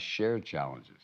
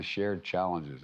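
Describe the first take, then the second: First: "shared" stressed, slowly and deliberately. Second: Said in the usual way. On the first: Real, not acted. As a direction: press down on "shared" to underline it. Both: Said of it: "I emphasize shared challenges".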